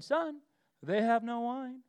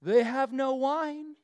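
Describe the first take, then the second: First: Mother's pointed nudge, son first; knowing hint. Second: Slow, pointed hint from Mary. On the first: Shown as a demonstration. Mary nudging her son at the wedding, knowingly. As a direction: say it like a loaded hint. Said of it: "That's how this is supposed to be read". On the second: Retold or imitated. Mary hinting to Jesus, slow and pointed. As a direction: drop the hint slowly, loaded with meaning. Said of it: "There's the tone".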